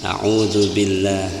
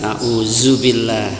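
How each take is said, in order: First: The middle consonant is a th-like tongue-tip sound. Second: The middle consonant is a plain z sound. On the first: The speaker calls it right. "zal itu ujung lidah" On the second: The speaker calls it wrong. "masih tekan auzubillah"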